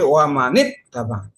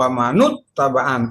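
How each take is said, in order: First: The n of man is followed by i. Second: The n of man is followed by u. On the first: The speaker calls it right. "tetapi wa manit tabaan" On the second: The speaker calls it wrong. "Tidak dibaca"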